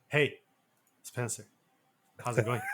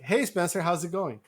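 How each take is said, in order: First: It is said quick, clipped and hushed. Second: It is said at an ordinary, relaxed conversational pace. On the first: "I would say like" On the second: "instead of saying something like"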